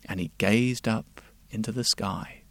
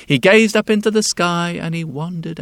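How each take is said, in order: First: Said in the usual way. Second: Lifted wonder. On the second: A narrator's reading. Repeated, louder, higher.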